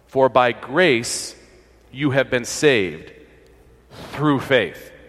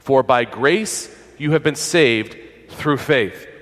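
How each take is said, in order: First: The sentence is read slowly and deliberately. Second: The sentence is read at a normal pace.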